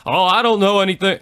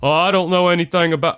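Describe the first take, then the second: First: Bill Clinton impression. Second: Higher, louder, fast mock Clinton; hammed-up Southern politician dodge; Bill Clinton impression. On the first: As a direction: do a hammed-up Bill Clinton brushing it off. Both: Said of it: "my best Bill Clinton impersonation".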